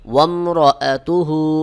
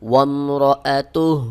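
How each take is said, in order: First: The word ends with a full 'hu' vowel. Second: The word ends without the final vowel. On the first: The reading continues without stopping. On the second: The reader stops at this word.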